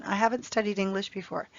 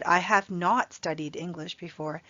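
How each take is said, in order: First: Said in the usual way. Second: Not said full and pressed hard; stress on not. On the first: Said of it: "Native speakers usually use the contraction". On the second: Shown as a demonstration. Teacher showing students an emphatic not. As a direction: push the word not to insist. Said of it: "then I'm really emphasizing to you".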